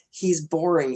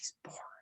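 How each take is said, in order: First: It is said in a normal voice. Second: It is said in a whisper. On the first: "Could you hear me hear me well enough?" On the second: "I'm going to whisper this secretly into your ear"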